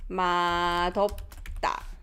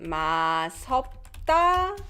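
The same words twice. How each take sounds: First: The final consonant links over as a d sound. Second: The final consonant links over as an s sound. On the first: The speaker calls it right. "It is number two" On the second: The speaker calls it wrong. "Number one"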